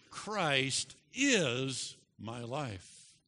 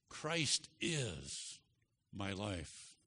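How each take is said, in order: First: "is" stretched long and punched, very slow; stress on is. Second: Said in the usual way. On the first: Shown as a demonstration. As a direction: lean hard on "is" and drag the whole line. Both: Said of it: "Emphasize the second word".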